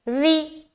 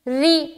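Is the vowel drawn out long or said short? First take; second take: short; short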